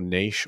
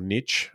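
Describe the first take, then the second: First: It is said with a non-American pronunciation. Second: It is said with an American pronunciation.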